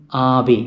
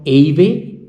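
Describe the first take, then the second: First: "Ave" as AH-vay, with open ah; Italian A pronunciation. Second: "Ave" as AY-vay, rising at the end; English-letter A mispronunciation. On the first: Teacher gives learners the Italian form, "Ave" said as AH-vay. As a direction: start "Ave" on a long Italian ah. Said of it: "it is A in Italian". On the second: Teacher shows what it is not, "Ave" said as AY-vay. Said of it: "So it is not Ave". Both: Shown as a demonstration.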